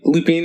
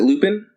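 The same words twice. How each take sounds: First: The name is said unlike the English word 'lupine'. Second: The name is said like the English word 'lupine'. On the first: This is how others in the show say it. "They say it funny" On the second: This is the speaker's own habit. "I pronounce it Lupin, like a kind of like a wolf"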